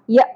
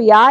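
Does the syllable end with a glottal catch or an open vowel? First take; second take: glottal catch; open vowel. First: The syllable ends with a sharp glottal catch. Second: The syllable ends on an open vowel. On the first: The speaker calls it right. "جھٹکے کے ساتھ" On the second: The speaker calls it wrong. "یا نہیں پڑھنا"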